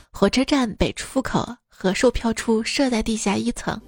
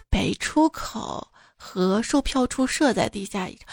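First: Said in the usual way. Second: 北出 then 口 split off; pause after 出. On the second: Shown as a demonstration. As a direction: say 北出 apart from 口 as a phrase. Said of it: "两个禽兽在地下一层做了什么".

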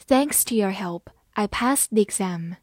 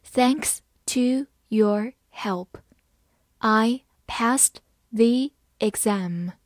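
First: Said in the usual way. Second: Slow, each word spaced out; deliberate slow classroom reading; slow read-along. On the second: Shown as a demonstration. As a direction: read it slowly so students can repeat. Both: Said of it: "慢慢来读".

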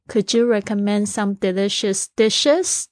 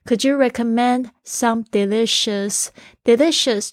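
First: "dishes" lifted at the tail, slow yes-no question rise; rising question tune. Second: Said in the usual way. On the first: Shown as a demonstration. Teacher showing listeners the yes-no question tune, slow rise on "dishes". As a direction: let the end of "dishes" climb like a polite question. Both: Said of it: "注意尾巴，这个语调要上扬".

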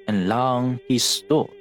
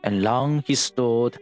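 No difference in how they are said.

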